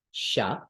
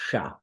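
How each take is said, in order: First: Sha like English ship; plain English sha. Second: Sha with the tongue curled back; retroflex sha. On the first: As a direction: sha with tongue flat. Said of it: "just like English". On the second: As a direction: sha made in the middle mouth. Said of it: "it's the retroflex version". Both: Shown as a demonstration.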